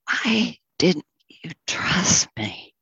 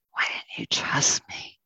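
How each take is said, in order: First: Said in the usual way. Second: Repeated as a hushed whisper; soft whisper. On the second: Acted. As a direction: let the question sink into a whisper. Ox reproaching the farmer, repeated.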